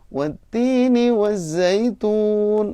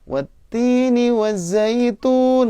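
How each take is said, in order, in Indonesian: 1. Nadanya tetap agak lebih rendah. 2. Nadanya naik ke nada tinggi. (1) "harusnya wattini wazzaitun, agak turun dikit" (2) "naiknya itu masuk ke nada tinggi"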